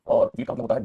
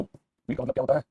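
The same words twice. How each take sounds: First: Said in the usual way. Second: Slow, drawn-out question ending on a rise; slower repeat. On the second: Shown as a demonstration. Teacher repeating the question for students, slow and rising. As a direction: stretch out wheat का मतलब क्या होता है and lift the end.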